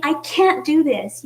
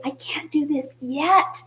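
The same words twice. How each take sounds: First: Said in the usual way. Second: Yet lifted at the end, said slowly; hopeful stress on yet. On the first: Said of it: "instead of saying". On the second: Shown as a demonstration. A worshipper reassured by God, stressing yet. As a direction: lean hopefully into the final word yet. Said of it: "you say".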